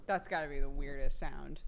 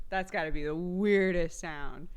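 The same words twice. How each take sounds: First: Said in the usual way. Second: "weirdest" drawn out slowly and louder; stress on weirdest. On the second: Real, not acted. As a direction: stretch the word "weirdest" with extra force. Repeats it, stretching one word.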